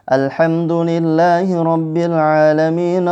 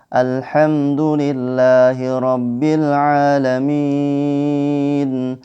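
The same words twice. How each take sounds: First: It is recited at a fast pace. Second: It is recited at a medium pace. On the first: "nah ini lebih cepat lagi" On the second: "Adapun tadwir sedang"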